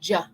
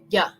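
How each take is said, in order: First: It begins with a j sound. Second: It begins with a y sound. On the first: The speaker calls it wrong. "We don't want to say ja" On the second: The speaker calls it right. "We want to say yeah, yeah, from the back of our throat"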